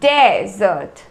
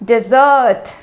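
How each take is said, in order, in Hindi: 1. जोर पहले अक्षर पर है। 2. जोर दूसरे अक्षर पर है। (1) "फर्स्ट सिलेबल में ज़्यादा फोकस डालते हैं" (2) "सेकेंड सिलेबल में ... ज़्यादा जोर डालते हैं"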